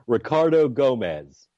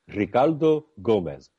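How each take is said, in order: First: The name is said with an American accent. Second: The name is said with a Spanish accent.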